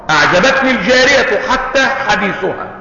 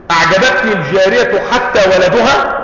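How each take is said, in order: First: Said in the usual way. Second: "أعجبتني الجارية حتى ولدها" with a rising, doubtful end on "ولدها"; wrong example, questioned. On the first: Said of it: "فيقال". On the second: Shown as a demonstration. Teacher tests a wrong sentence on his students, rising on "ولدها". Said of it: "ما ينفعش".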